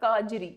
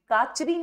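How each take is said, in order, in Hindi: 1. बीच का व्यंजन सघोष 'j' ध्वनि है। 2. बीच का व्यंजन अघोष 'ch' ध्वनि है। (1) "ये है काजरी" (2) "काचरी नहीं"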